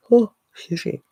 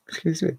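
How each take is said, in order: First: A much higher, louder Oh, excuse me; flustered, squealing apology; high exclamation. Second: A quick, soft excuse me through a laugh; breaking up into a light laugh; laughing apology. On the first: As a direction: pop the Oh up high and bright. Second apology after Jimmy impression. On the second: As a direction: giggle out a hushed excuse me. Laughing apology after Jimmy impression. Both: Real, not acted.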